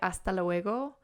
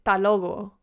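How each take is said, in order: First: Every syllable is pronounced fully. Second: It is clipped, as in Granada.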